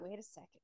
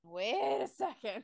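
First: Very soft, low murmur; murmured reaction to oneself; quiet double take. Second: Drawn out at half speed; slow, drawn-out realization; slow-dawning double take. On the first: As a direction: say it under your breath, lower. Acts out own reaction, first take. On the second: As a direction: stretch out each word as it sinks in. Repeats reaction, drawn out. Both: Retold or imitated.

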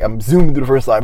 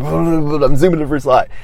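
First: Said in the usual way. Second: Laughing. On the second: Real, not acted.

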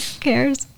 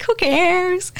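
First: Softer echo. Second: Much higher, breezy "Who cares?"; carefree Jesus. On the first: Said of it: "it's like". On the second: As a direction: toss it off, totally unbothered. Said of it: "but he's like". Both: Retold or imitated.

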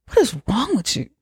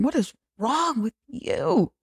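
First: Said in the usual way. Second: High, slow, softer mock disbelief; imitating their vibe. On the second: The guests judging Patrick, slow hushed high mock voice. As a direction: drag it out in a hushed high put-on voice. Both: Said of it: "That's the vibe they were giving".

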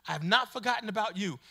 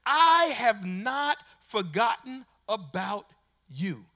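First: Said in the usual way. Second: Slow, measured voice of God; a touch of God speaking to the listener; God's reassuring words. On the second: Acted. Preacher voicing God, slow and deliberate.

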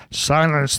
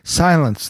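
First: Sharp high bark of a king; barked command. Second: Barked command. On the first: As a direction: snap it out like a royal order. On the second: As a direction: snap it out like a king. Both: A narrator's reading. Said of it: "barked back".

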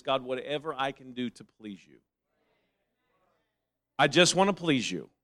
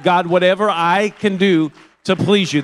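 First: Very soft, low voiced prayer; humble prayer. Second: Loud, impassioned cry to God; fervent prayer. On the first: Preacher voicing a believer's devotion to God, hushed and humble. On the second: Acted. Preacher showing what holiness says to God, loud and fervent. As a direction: raise the voice in earnest devotion.

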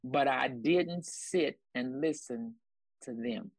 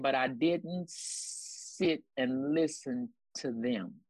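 First: Drawn out slowly, each word weighed; slow emphatic repeat. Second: Drawn out slowly, word by word; slow emphatic quote. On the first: Repeating the key line slowly for the congregation. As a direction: lean on every word, slowly. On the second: Preacher slowing down to drive the point home. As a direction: let each word land slowly. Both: Shown as a demonstration. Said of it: "I'm gonna say that again".

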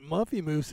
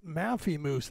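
First: Muffy, first vowel as in cup; the old wrong way, Muffy rhyming with fluffy; Muffy with an uh sound. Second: Maffy, first vowel as in cat, said slowly; Maffy stressed and drawn out, vowel as in cat; Maffy with an a sound. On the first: Correcting a misread name, saying it the wrong way first: Muffy as in cup. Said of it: "it's Maffy Moose". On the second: Giving viewers the right name: Maffy with the vowel of cat. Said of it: "it's not Muffy Moose". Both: Shown as a demonstration.

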